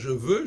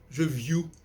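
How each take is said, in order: First: The vowel is a plain rounded eu sound. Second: The vowel is a gliding you sound. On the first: "au lieu de dire je veux" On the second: "je vais dire je, je view"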